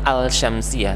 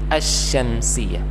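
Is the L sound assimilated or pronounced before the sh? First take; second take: pronounced; assimilated. First: The L sound is clearly pronounced before sh. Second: The L merges into a doubled sh sound. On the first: The speaker calls it wrong. "bukan al-syamsiyah" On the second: The speaker calls it right. "tapi asy-syamsiyah"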